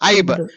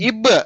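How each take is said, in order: First: The vowel is an 'eye' diphthong sound. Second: The vowel is a short 'i' sound. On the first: The speaker calls it wrong. "ఐబ్ కన్నా ఇబ్బే బాగుంటది" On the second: The speaker calls it right. "ఐబ్ కన్నా ఇబ్బే బాగుంటది"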